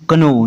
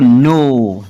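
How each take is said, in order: First: The word starts with a k before the n. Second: The word starts with a plain n sound. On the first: The speaker calls it wrong. "ना कि कनो" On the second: The speaker calls it right.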